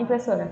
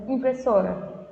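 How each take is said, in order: First: Impressora said quickly in one go; quick demo of impressora. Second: Said in the usual way. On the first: Shown as a demonstration. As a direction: say impressora fast, letting SO carry it. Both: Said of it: "Você fala bem rápido".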